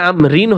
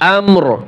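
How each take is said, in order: First: The word ends with an added 'in' sound. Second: The word ends sharply on a bare 'r'. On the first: The reciter continues without stopping. "দুই জের রিন আম রিন" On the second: The reciter stops on this word. "ওয়াকফ করলে আম রিন হবে না আমর"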